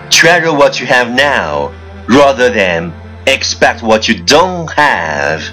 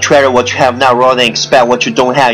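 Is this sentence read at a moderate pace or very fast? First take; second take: moderate; very fast. First: The sentence is read at a moderate pace. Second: The sentence is read very fast in one breath.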